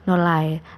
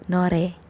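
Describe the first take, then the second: First: The middle consonant is a clear L sound. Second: The middle consonant is a light R sound. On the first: The speaker calls it wrong. "nolae itu salah" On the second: The speaker calls it right. "Jadi yang benar nore"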